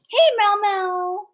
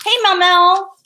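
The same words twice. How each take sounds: First: Slow, high, stretched call; lilting slow call to Mel Mel; drawn-out call. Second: Loud high call across the room; sing-song call to Mel Mel. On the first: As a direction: stretch her name out slowly and high. Calling again, drawn out. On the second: Calling out to someone. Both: Real, not acted.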